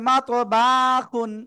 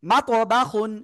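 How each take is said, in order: First: The vowel in 'ba' is drawn out long. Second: The vowel in 'ba' is said quickly and short. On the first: The speaker calls it wrong. "অনেকে বলতেছে" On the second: The speaker calls it right. "বাতে টান নাই কিন্তু, হরকতের উচ্চারণটা তাড়াতাড়ি পড়তে হয়"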